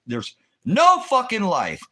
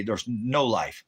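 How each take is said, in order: First: Much higher and louder, slow and shouted; furious shout. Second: Said in the usual way. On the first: Real, not acted. Ranting to the stream that the country is dead, shouting. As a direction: yell it out slowly, driving the point home. Ranting that America has no life.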